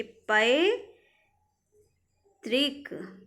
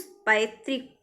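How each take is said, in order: First: पैतृक broken as पै, long pause, तृक; very slow syllables. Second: Said in the usual way. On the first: Shown as a demonstration. Teacher asks students to look carefully, पैतृक in drawn-out parts. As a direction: stretch पैतृक, holding the first syllable. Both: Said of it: "बहुत ध्यान से देखिए".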